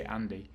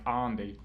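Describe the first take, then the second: First: ANDY in a modest American accent; attempted American accent. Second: ANDY with a long "ah", "Ahn-dee"; accent as heard. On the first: Streamer making himself understood abroad, ANDY in his best American accent. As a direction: say ANDY the American way, a short front "a". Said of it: "I do my best American accent". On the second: Streamer showing how his accent sounds to them, ANDY as "Ahn-dee". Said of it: "my accent to them sounds like". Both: Shown as a demonstration.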